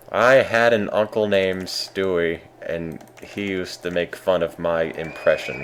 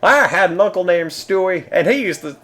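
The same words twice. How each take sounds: First: Slow, deliberate impression attempt; Bill Cosby. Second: High impression slipping into country bumpkin; botched impression, pitched up like a yokel; Bill Cosby. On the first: Streamer retrying a failed celebrity impression more carefully, slow mimicry. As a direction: take it slower, stretching the opening words. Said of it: "Take it slower". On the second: Streamer retrying a celebrity impression for viewers, drifting into high country bumpkin. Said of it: "now it's turning into, like, country bumpkin".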